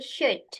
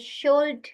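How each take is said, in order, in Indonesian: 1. Bunyi L tidak diucapkan dalam kata itu. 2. Bunyi L diucapkan dalam kata itu. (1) "L-nya silent" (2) "Jadi bukan should"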